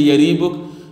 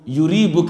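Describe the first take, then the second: First: The first vowel sounds like 'a'. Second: The first vowel sounds like 'u'. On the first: This form is the more eloquent one. The speaker calls it right. "the more eloquent is to say Yaribuk" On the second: This form is the more commonly used one. The speaker calls it wrong. "Yuribuk is popular"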